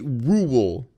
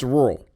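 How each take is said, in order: First: Rural is said in a fancy, refined way. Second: Rural is said in a folksy Midwestern way. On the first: The speaker is a pretentious outsider. The speaker calls it wrong. "If you're like fancy pants, you say rural" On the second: The speaker is from the country. The speaker calls it right. "if you live where I live, it's rural"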